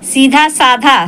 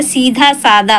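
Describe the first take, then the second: First: सीधा साधा with aspirated ध in साधा, said slowly; wrong form quoted. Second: सीधा सादा with plain द in सादा; correct form. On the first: Teacher shows students the wrong सीधा साधा slowly. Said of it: "सीधा साधा गलत होता है". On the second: Teacher gives students the correct सीधा सादा. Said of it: "सीधा सादा होता है". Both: Shown as a demonstration.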